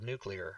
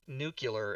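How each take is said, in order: First: The word is said like 'noo-klee-er'. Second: The word is said like 'noo-kyuh-ler'. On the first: The speaker calls it right. "instead of nuclear" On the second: The speaker calls it wrong. "why are you saying nuclear instead of"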